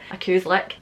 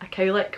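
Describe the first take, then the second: First: Cow is said as Scots coo. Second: Cow is said with standard English ow.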